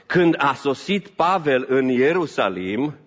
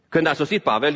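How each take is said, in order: First: Când a sosit Pavel în Ierusalim spelled out slowly, each word weighed; slow emphasis. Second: Said in the usual way. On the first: Acted. Preacher setting the scene for the congregation, slow and weighty. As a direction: lean on Când, then let it unfold slowly.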